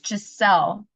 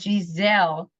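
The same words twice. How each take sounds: First: The middle consonant is a hissing s sound. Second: The middle consonant is a buzzing z sound. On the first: The speaker calls it right. "It's Giselle with an S" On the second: The speaker calls it wrong. "You said Giselle"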